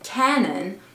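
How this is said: It is said with an English accent. "en anglais"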